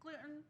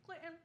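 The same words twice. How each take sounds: First: Timid gluten. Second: "Gluten" barely voiced, much softer; timid gluten. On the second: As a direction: say "Gluten" shyly, a tiny fragile word. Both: Shown as a demonstration. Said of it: "That's how I say it".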